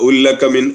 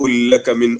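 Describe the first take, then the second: No difference in how they are said.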